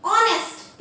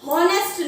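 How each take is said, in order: First: ऑनेस्ट starting on the "o" vowel; silent H. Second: हॉनेस्ट with a sounded H; H pronounced wrongly. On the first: Teacher modelling the word, ऑनेस्ट with silent H. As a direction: say ऑनेस्ट as "ON-est", dropping the H. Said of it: "इसे हम बोलेंगे ऑनेस्ट". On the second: Teacher showing what to avoid, हॉनेस्ट with sounded H. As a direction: say हॉनेस्ट as "HON-est", H audible. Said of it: "इसे हम हॉनेस्ट नहीं बोलेंगे". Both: Shown as a demonstration.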